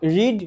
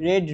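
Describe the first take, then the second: First: The vowel is long, like 'reed'. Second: The vowel is short, like 'red'. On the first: The present, base form of the verb. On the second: The past and past participle form of the verb.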